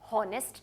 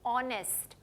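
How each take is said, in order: First: The word begins with an h sound. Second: The word begins with a vowel sound. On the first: The speaker calls it wrong. "मैं हॉनेस्ट नहीं कह रही हूँ" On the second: The speaker calls it right. "ऑ किसकी sound है? वाउल sound"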